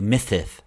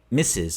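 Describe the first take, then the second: First: The hissing sounds are lisped th sounds. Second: The hissing sounds are clear s sounds. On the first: The speaker calls it wrong. "you turn them into dental fricatives" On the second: The speaker calls it right. "instead of making your S sounds"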